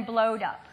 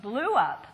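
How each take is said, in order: First: "blowed" said as a regular past, blowed up; child's error form. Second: Said in the usual way. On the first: Shown as a demonstration. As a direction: stress the wrong form "blowed". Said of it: "than "blowed up". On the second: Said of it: "instances of "blew up" than "blowed up".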